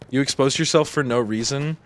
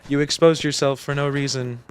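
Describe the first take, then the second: First: It is said in his normal voice. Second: It is said in a GLaDOS robot voice.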